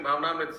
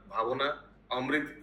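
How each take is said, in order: First: The word is run together as one word. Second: The word is split into two separate words. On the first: The speaker calls it right. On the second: The speaker calls it wrong.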